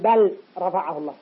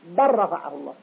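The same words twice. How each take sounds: First: The l sound is pronounced separately. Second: The l sound merges into the following r. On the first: The speaker calls it wrong. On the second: The speaker calls it right.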